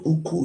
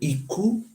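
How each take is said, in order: First: The word begins with an oo sound. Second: The word begins with an ee sound. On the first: The speaker calls it wrong. "It's not Uku" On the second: The speaker calls it right. "it's called Iku"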